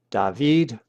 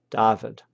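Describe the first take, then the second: First: David with the stress on the final syllable, vid; Greek stress on last syllable. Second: David stressed on the first syllable, DA-vid; Latin stress on first syllable. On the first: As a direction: land on the end of David, da-VID. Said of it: "The Greek accent is on the last syllable". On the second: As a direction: hit the start of David, DA-vid. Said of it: "the Latin accent is on the next to last syllable". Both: Shown as a demonstration.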